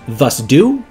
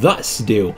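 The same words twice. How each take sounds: First: The stress falls on the second word. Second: The stress falls on the first word. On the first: The speaker calls it wrong. "does not make sense when I speak it" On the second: The speaker calls it right. "does make a lot more sense"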